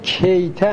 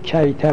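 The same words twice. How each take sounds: First: The first syllable has the vowel 'i'. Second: The first syllable has the vowel 'a'. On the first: "میگیم به کسر کاف" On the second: "میگیم به فت"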